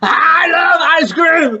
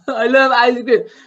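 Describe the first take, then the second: First: It is said in an angry tone. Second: It is said in a sad tone.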